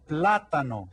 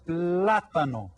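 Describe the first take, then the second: First: "plátano" again, stress on PLÁ; repeat model. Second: "plátano" slowly, stress on PLÁ; slow model word. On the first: Teacher repeating plátano for kids to echo. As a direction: say "plátano" once more clearly. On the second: Teacher slowly modelling plátano for kids. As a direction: stretch out "plátano" for the class. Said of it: "this one is called el". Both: Shown as a demonstration.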